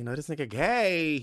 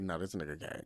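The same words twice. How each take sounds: First: High, loud exclamation; raised-voice certainty; emphatic retold realization. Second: Low, soft aside; quiet private conclusion; muted retold thought. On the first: Second, emphatic take of retold thought. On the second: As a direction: say it under the voice. First, muted take of retold thought.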